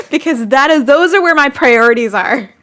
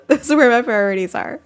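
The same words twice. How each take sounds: First: Louder, firm statement of priorities; louder, firmly insisting "priorities"; emphatic declaration. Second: Laughing so hard the words crack; giggling through "priorities"; laughing repeat. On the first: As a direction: declare it proudly. Defending her spending, then repeating. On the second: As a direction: say it again while laughing. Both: Real, not acted.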